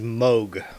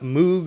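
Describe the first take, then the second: First: The name is said the non-British way. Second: The name is said the British way. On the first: The speaker calls it right. "it is Moog" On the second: The speaker calls it wrong. "Do not let the Brits confuse you. It is not Moog"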